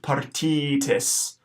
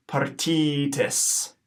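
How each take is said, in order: First: "partitis" at normal pace; first take of "partitis"; modelled Latin word. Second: "partitis" slowly with a long middle ee; slow echo of "partitis"; slow Latin pronunciation. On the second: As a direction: stretch "partitis" out. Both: Shown as a demonstration. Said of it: "a long I in the middle".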